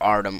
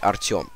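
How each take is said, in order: First: The name is said with a foreign, English-style pronunciation. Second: The name is said with a Russian pronunciation. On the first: This is how foreigners say it. "you pronounce like something" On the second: This is how native speakers say it. "in Russia it's like"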